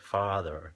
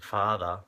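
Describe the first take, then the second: First: The final R sound is clearly pronounced. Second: The final R sound is dropped. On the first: "I tend to roll it just so people understand me" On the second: "Instead of saying father"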